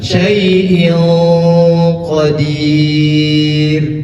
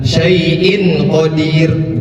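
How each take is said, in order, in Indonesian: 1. Bunyi n ditahan sebagai dengung yang samar. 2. Bunyi n diucapkan jelas dan singkat. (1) "tetapi ditahan. Syai'in qadir. Seperti itu" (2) "Bukan syai'in qadir, bukan"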